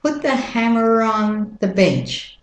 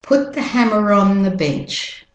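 First: American vowels, "on" said like "ahn"; American-accent model sentence. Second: British-Australian vowels, linking R in "hammer on"; British-Australian teacher's model sentence; British-Australian accent. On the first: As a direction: link "hammer on" with an American R. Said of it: "And the American accent". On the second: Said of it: "doing the British Australian accent". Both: Shown as a demonstration.

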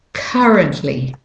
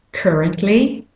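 First: Currently with British or Australian "uh", falling; British or Australian take on currently, no R in CUR; British or Australian accent. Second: Currently with American "er", rising; American take on currently, ending up like one of two options; American accent. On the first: Teacher contrasting accents, British or Australian accent on currently. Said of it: "the U says ah". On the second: Teacher contrasting accents, American accent on currently. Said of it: "if you're saying it with an American accent". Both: Shown as a demonstration.

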